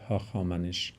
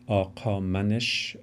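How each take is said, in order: First: The name begins with an h consonant. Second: The name begins with a q-like consonant. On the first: The speaker calls it wrong. "instead of" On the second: The speaker calls it right. "perhaps phonetically accurate pronunciation of"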